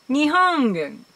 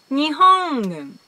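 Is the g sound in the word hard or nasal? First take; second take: nasal; nasal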